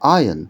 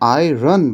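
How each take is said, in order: First: The r sound is very light, barely heard. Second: The r sound is clearly pronounced. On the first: The speaker calls it right. "সঠিক উচ্চারণটা হচ্ছে আয়ন। আটটার খুব হালকা উচ্চারণ।" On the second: The speaker calls it wrong. "দেখো এখানে আয়রন বলে না"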